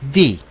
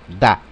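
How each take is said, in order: First: The vowel is a long 'ee' sound. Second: The vowel is a short 'uh' sound. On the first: The next word starts with a vowel. "el artículo cambia la pronunciación por the" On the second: The next word starts with a consonant. "el artículo lo pronunciamos da. Da, con ese acento"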